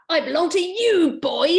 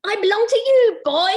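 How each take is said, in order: First: Half-committed high fairy voice; a lightly voiced bossy fairy; higher, louder fairy claim. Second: Much higher, louder fairy voice; shrill fairy voice, fully committed; Stink voice. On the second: Acted. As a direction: go full out on the fairy. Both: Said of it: "I'm gonna change my stink voice".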